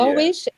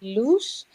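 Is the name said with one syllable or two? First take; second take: two; one. First: The name is two syllables, like Lo-is. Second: The name is one syllable with an oo vowel. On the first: This is how people say it abroad. "in America, they call me Lois" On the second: This is how it is said at home. "In the Netherlands, we say loose"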